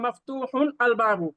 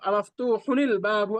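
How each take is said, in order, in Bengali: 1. শব্দ দুটো আলাদা আলাদা করে বলা হয়, মাঝে কোনো স্বর যোগ হয় না। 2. ন পরের শব্দের সাথে i দিয়ে যুক্ত হয়।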